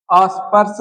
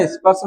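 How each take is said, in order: First: स्पर्श with an a- in front, "aspars"; wrong form. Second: स्पर्श said "ispars", i-glide first; correct form. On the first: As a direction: say अस्पर्श starting on "as". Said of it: "अस्पर्श नहीं होता". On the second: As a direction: start स्पर्श on a light "is". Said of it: "स्पर्श शब्द होता है". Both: Shown as a demonstration.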